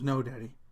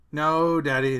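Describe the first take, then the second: First: Said in the usual way. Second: Louder, playfully exasperated refusal; daughter's amused protest. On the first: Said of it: "She goes". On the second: Retold or imitated. Daughter laughing at Dad's plea, louder amused protest. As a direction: push back at a teasing dad. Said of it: "she's laughing at me, rolling her eyes".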